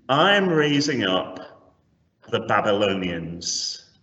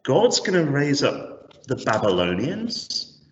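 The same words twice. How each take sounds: First: Said in the usual way. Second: Acted dismayed disbelief, rising into a question; imagine dreading the news, questioning it incredulously; sinking in terror. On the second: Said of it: "sinking in terror".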